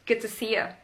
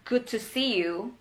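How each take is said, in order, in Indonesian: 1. Kata terakhir direduksi menjadi 'ya'. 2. Kata terakhir adalah 'you' penuh. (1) "They just say good to see ya. It's faster" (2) "it's a proper way to say it"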